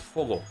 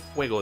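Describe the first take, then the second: First: The first syllable is a plain 'o'. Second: The first syllable has a 'we' glide. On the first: This is how people in Spain say it. "they say fogo" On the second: This is the standard Spanish form. "they don't say fuego"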